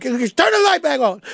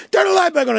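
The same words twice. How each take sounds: First: Higher, frightened call in the dark; scared plea. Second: Panicked scream. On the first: Suspect in the dark room calling out, scared and higher. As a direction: beg for the light. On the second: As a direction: shriek for the light now. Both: Retold or imitated. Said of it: "next thing you like".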